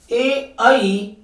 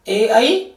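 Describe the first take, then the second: First: ए, आई stretched out, each vowel held long; very slow vowel drill; slow recitation. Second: Said in the usual way. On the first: Shown as a demonstration. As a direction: drag out ए and आई so the class hears both. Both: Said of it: "यानी कि आप इनको याद रखना".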